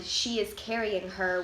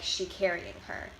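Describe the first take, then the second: First: Said in the usual way. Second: "She carrying her" with no is; verb to be dropped. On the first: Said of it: "the Standard English sentence". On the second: Shown as a demonstration. Presenter showing Chicano English, "She carrying her" without the is. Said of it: "the verb to be is often not present".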